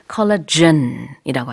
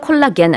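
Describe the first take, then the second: First: The last syllable starts with a j sound. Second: The last syllable starts with a hard g. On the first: The speaker calls it right. "영어로는 ... 콜라겐이라고 합니다" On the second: The speaker calls it wrong. "콜라겐 아니고"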